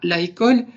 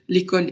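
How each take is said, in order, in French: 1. La voyelle de l'article est gardée devant « école ». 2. La voyelle de l'article est élidée devant « école ». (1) "et pas la école" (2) "c'est le fait de dire l'école"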